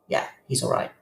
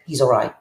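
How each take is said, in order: First: A quiet private reassurance; soft echo. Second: Said in the usual way. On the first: Retold or imitated. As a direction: repeat it much softer, almost to yourself. Echoed reassurance, voice dropped.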